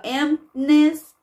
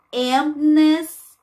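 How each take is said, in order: First: "emptiness" repeated fast, p kept clear; quick spoken "emptiness". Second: "emptiness" sung stressing the p; "emptiness" with a clear p. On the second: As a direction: pop the p in "emptiness". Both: Shown as a demonstration. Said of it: "e esse P".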